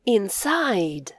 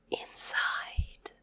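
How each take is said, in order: First: Said in the usual way. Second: Whispered echo of "inside". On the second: Shown as a demonstration. Teacher whispering the word back for kids. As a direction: say "inside" on breath only.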